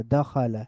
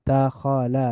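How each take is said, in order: First: দাখালা as one joined word, da-kho-la; blended together. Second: দাখালা slowly as da, kho, la; syllable by syllable. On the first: Teacher reading joined-up, দাখালা blended into one word. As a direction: run দাখালা together with a fall. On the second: Teacher breaking down the word, দাখালা syllable by syllable. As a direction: split দাখালা into three drawn-out syllables. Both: Shown as a demonstration. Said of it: "একটু মিলিয়ে মিলিয়ে পড়ব".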